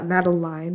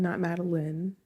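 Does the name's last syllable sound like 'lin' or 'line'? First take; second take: line; lin. First: The last syllable rhymes with 'line'. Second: The last syllable is a short 'lin'. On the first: The speaker calls it right. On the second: The speaker calls it wrong.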